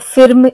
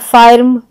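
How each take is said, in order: First: The vowel is a short ih sound. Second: The vowel is a long open ah sound. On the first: "ऐसे हम नहीं करते pronunciation" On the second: "ऐसे हम नहीं करते प्रोनाउंसिएशन"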